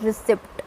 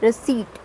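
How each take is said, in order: First: Very slow, P sounded; "receipt" with the p sounded; wrong receipt. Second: Receipt as ri-seet; "receipt" with p silent, ri-seet; correct receipt. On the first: Teacher showing the mistake: very slow receipt with p. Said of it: "not receipt". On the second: Teacher modelling the word: ri-seet. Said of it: "it is receipt". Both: Shown as a demonstration.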